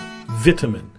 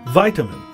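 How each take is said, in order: First: It is said with a British pronunciation. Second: It is said with an American pronunciation. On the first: "The British use a I sound" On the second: "while the Americans use a I sound"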